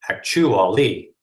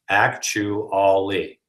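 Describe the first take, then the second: First: Stress falls on the second and fourth syllables. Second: Stress falls on the first and third syllables. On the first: The speaker calls it wrong. "reversing the stress pattern" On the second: The speaker calls it right. "the first and the third are stressed"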